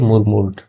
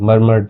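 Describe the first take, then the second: First: The first vowel is a rounded 'oo' sound. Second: The first vowel is an 'er' sound. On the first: The speaker calls it wrong. "मुरमुर नहीं पढ़ते इसको" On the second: The speaker calls it right. "मरमर्ड पढ़ेंगे"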